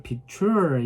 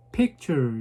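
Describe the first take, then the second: First: "picture" wrongly stressed and drawn out on -TURE; stress on second syllable. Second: "picture" slowly, with PIC stressed; stress on first syllable. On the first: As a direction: push the end of "picture", pic-TUUURE. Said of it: "이렇게 안 하고". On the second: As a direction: hit the front of "picture", PIC-ture. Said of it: "이렇게 앞에, 에, 스트레스를 줍니다". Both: Shown as a demonstration.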